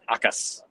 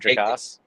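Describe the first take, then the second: First: The name starts with a vowel sound. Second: The name starts with a J sound. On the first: The speaker calls it right. "It is Akas" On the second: The speaker calls it wrong. "It is not Jacas"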